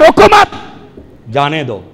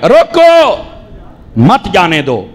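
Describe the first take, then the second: First: The pause comes right after 'mat'. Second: The pause comes right after 'roko'.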